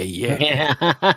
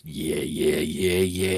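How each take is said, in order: First: Rising, laughing taunt; mocking laugh. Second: Low, menacing murmur; low creepy voice. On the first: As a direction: cackle as the taunt climbs. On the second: Retold or imitated. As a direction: creep away with a low taunt. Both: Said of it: "he's like".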